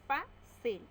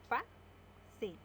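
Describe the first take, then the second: First: Fácil called out higher and louder; announced example word. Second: Fa-cil split into two beats; syllable by syllable. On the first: (anuncia Fácil más alto y fuerte) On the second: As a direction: break Fa-cil into fa and cil. (Fa-cil separada en sílabas) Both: Shown as a demonstration. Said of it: "Separamos en sílaba".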